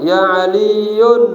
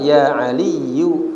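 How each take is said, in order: First: The name ends with an added n sound. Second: The name ends on a short u vowel. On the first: The speaker calls it wrong. "Jangan bilangnya apa?" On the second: The speaker calls it right. "ini yang benar"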